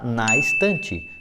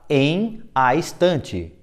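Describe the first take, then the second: First: The preposition and article merge into one syllable. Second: The preposition and article are said as separate words. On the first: "Juntos os dois" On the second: "Resposta, está em a estante"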